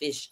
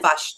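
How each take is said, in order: First: The vowel sounds like a short 'i'. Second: The vowel sounds like a short 'u'. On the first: "not fish" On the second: "You change your eyes to you"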